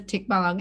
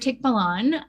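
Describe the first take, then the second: First: The word ends with an ng sound. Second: The word ends with a plain n sound. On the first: The speaker calls it right. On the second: The speaker calls it wrong.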